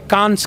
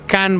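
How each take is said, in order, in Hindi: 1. शब्द के अंत में सुनाई देने वाली 's' ध्वनि है। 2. शब्द के अंत में कोई 's' ध्वनि नहीं है। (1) "जिसको इंडिया में कांस कहते हैं लोग" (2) "फ्रेंच में कैन बोलते हैं उसको"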